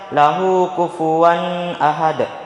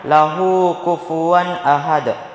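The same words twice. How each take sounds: First: The n before 'ahad' is nasalized and held. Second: The n before 'ahad' is clear, without nasalization. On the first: The speaker calls it wrong. "Jangan dibaca ... Salah" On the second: The speaker calls it right. "Yang benar"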